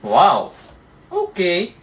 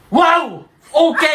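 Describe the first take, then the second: First: It sounds sarcastic and mocking. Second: It sounds mad and angry.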